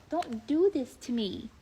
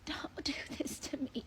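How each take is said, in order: First: Said in the usual way. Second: Much softer breathy whisper; whispered mock despair. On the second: Real, not acted. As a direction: drop to a whispered plea. Repeated plea, whispered.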